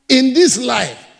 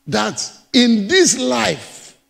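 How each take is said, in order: First: "in this life" again, punched louder on "this"; louder repeat. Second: Slow emphasis. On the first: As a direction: hit "this" hard the second time. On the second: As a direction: draw out "in this life" very slowly, stressing "this". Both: Acted. Preacher repeats phrase for emphasis.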